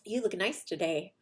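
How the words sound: It is said in a sincere, genuine tone. The compliment is meant genuinely. "The first time I meant it"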